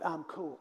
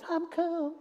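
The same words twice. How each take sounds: First: It is said at the usual pitch. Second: It is said with a shifted octave.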